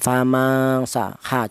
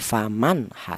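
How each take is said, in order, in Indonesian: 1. Bunyi n-nya samar dan sengau. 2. Bunyi n-nya diucapkan dengan jelas. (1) "Jangan disamarkan, jangan" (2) "tapi faman ha, seperti itu"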